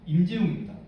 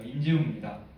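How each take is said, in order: First: The name is said with stronger emphasis. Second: The name is said plainly, without extra emphasis.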